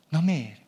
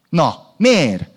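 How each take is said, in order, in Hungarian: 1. A kérdés kedves és barátságos hangzású. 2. A kérdés kemény és követelőző hangzású. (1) "most nem így" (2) "Nem akartam bántó lenni"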